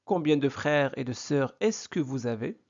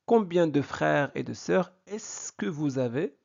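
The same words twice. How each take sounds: The two takes are said the same way.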